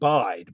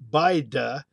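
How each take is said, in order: First: The word ends on the d sound. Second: A final vowel is sounded after the d. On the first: This is the modern form after the E dropped. "then the E dropped off and you have bide" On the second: This is the older form before the E dropped. "Then the vowel changed to I"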